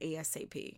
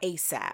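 First: It is spelled out letter by letter. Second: It is said as a single word.

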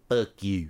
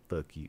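First: It is said in an exaggerated, dumb-sounding put-on voice. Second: It is said in a plain, ordinary voice. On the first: "We would do an impression of it... make it sound dumber" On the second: "it's just very like normally delivered"

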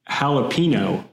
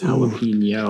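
First: The last syllable has a plain n sound. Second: The last syllable has an ny sound. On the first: The speaker calls it wrong. "She says jalapeno" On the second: The speaker calls it right. "do you see that little tilde over the end? You're saying it wrong. It's jalapeno"

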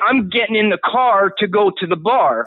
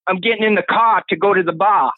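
First: It has a Pennsylvania accent, R's pronounced. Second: It has a New England accent, R's dropped.

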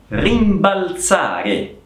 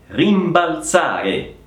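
No difference in how they are said.

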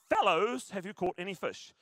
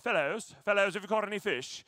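First: It is read in the speaker's usual accent. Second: It is said in a put-on British accent.

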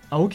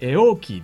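First: The name begins with an 'a' sound. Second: The name begins with an 'e' sound. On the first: The speaker calls it wrong. "アオキじゃなくて" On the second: The speaker calls it right. "エオーキーっていうのがEDM で界隈で有名なんです"

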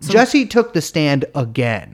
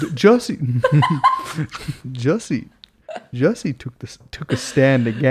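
First: It is said in a normal speaking voice. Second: It is said in a put-on gourmand voice.

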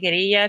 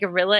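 First: It is said unlike the animal name gorilla. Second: It is said just like the animal name gorilla. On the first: "sometimes when I say guerrilla, people are like, what?" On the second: "it sounds like I'm talking about gorillas, like animals"

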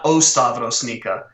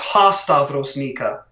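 First: The first word begins with a bare vowel. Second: The first word begins with an h sound. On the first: The speaker calls it wrong. "not O Stavrosnika. So I mispronounced that" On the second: The speaker calls it right. "It's Ha Stavrosnika"

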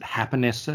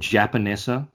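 First: The name is said with a Spanish-style opening sound. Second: The name is said with an English-style opening sound. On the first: This is how the restaurant itself says it. "they pronounce it Happanessa because it's a Japanese-Mexican fusion" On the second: This is the speaker's own everyday way of saying it. "I'm going to call it Japanessa"

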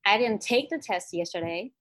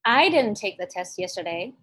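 First: The stress is on "take". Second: The stress is on "I".

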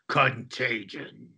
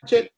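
First: It is said in an evil voice. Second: It is said in a normal voice.

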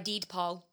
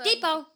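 First: The d is clearly pronounced, with an extra beat. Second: The d is dropped, said quickly as two syllables. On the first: "that extra D had so much time" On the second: "everyone else says it faster"

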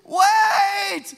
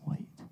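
First: It is said loudly and urgently. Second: It is said quietly and calmly.

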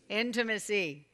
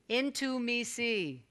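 First: It is said fast, as one word. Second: It is said slowly, word by word.

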